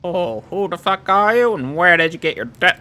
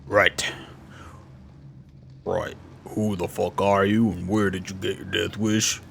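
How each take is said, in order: First: Higher, louder put-on voice; trial character voice. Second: Low, slow character voice; super deep voice. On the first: Auditioning a voice for her, high and loud. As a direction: pitch it up and push it out, in character. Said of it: "don't wanna do that one". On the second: Acted. Streamer demonstrating a deep voice option, low and slow. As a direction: drop right down into a deep voice. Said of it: "do the super deep voice thing".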